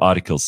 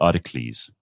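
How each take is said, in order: First: The word is said in its ordinary way. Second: The word is said like a Greek hero's name. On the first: "Instead of articles" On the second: "words that should be pronounced like ancient Greek heroes"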